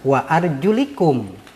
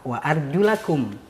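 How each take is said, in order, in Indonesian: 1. Vokal setelah l adalah i. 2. Vokal setelah l adalah a. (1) "menurut Imam Ibnu Katsir menggunakan kalimat wa arjulikum" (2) "menggunakan fathah wa arjulakum"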